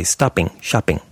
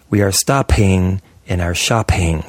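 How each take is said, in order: First: STOPPING, SHOPPING with no puff after P; unpuffed P. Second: STOPPING and SHOPPING as "stop-hing", "shop-hing", slow; wrongly puffed P. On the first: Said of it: "You'd say". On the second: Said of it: "You'd never say that". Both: Shown as a demonstration.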